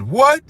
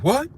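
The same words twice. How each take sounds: First: High, rising, louder indignant what; outraged what. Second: Said in the usual way. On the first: Retold or imitated. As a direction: throw the What? up high like a stunned crowd. Crowd's stunned reply, retold.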